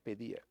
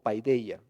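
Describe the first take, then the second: First: The first syllable sounds like 'pe'. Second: The first syllable sounds like 'pai'.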